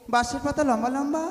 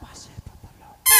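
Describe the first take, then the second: First: It is said at medium volume. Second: It is said very softly.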